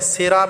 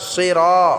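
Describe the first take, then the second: First: The first consonant is thin and light. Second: The first consonant is heavy and full-mouthed. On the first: The speaker calls it wrong. "সিরা বললে হবে না" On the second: The speaker calls it right. "সোয়াদটাকে আমরা ভালো করে মোটা করে উচ্চারণ করতে হবে"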